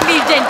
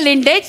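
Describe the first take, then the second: First: The sounds come out as 'legend', in normal order. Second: The sounds come out as 'lindej', consonants swapped. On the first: The speaker calls it right. "लेकिन मेरे लीजेंड थे" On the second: The speaker calls it wrong. "तेरे आजोबा रहेंगे लिंडेज"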